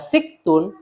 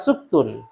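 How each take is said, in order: First: The first vowel is i. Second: The first vowel is u. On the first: "Bisa dibaca tiga sinnya" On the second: "Bisa dibaca tiga sinnya"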